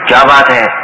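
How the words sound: It is said in an angry tone. The speaker is angry. "اس کا مطلب ہے کسی نے غصے میں یہ بات کہی ہے"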